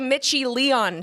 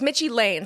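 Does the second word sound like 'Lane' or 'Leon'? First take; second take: Leon; Lane. First: The second word is said with two syllables, 'Leon'. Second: The second word is said with one syllable, 'Lane'. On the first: The speaker calls it wrong. "I mispronounced it" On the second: The speaker calls it right. "It's Mitchie Lane"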